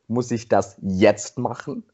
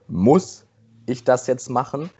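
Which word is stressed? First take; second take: jetzt; muss. First: The word jetzt is stressed. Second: The word muss is stressed. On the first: It asks whether it must be done right now. "Die nächste Betonung ist" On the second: It asks whether the task is necessary at all. "die erste Betonung ist"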